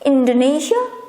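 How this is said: It is pronounced the English way. "but in English it's Indonesia"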